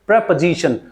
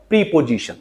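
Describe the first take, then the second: First: "प्रपोजिशन" as preh-puh-ZI-shun; correct pronunciation. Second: "प्रीपोजिशन" as "pree-po-zishun", long EE and full O; full vowels in "प्रीपोजिशन", no weak syllable; wrong pronunciation. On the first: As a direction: say "प्रपोजिशन" with a schwa second syllable, stress on "ZI". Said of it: "So आप इसको बोलोगे". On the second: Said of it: "not प्रीपोजिशन". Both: Shown as a demonstration.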